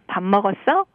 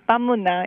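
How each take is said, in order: First: It is said in a Seoul accent. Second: It is said in a Busan accent. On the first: "in Seoul accent, it should have sounded like" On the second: "But in Busan, we say"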